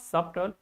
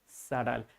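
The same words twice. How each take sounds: First: The b sound is pronounced in the middle. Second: The b sound is left out entirely. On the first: The speaker calls it wrong. "not subtle" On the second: The speaker calls it right. "B is silent here"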